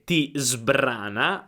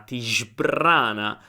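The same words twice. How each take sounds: First: The verb starts with a plain s sound. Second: The verb starts with a sh sound. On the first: "che è la corretta pronuncia in italiano" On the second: "non è un sbr, sbr, ma è shbr"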